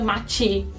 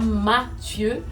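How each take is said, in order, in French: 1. Le prénom est prononcé avec une prononciation mauricienne. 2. Le prénom est prononcé avec une prononciation française standard. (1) "mais nous on dit Mathieu" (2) "c'est bien Mathieu"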